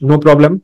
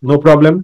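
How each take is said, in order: Both takes have the same delivery.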